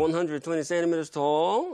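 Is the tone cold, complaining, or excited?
complaining. It is said in a dissatisfied, complaining tone.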